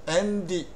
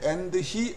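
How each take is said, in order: First: The two words are linked into one. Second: The two words are said separately. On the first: The speaker calls it right. "붙여서 연음으로 한 단어처럼" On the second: The speaker calls it wrong. "and he 안 하고요"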